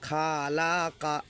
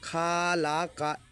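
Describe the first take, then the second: First: The first vowel is drawn out long. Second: The first vowel is drawn out long.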